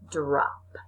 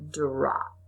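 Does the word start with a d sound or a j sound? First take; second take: d sound; d sound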